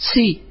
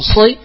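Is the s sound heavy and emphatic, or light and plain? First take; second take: plain; emphatic. First: The s sound is light and plain. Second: The s sound is heavy and emphatic. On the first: The speaker calls it wrong. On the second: The speaker calls it right.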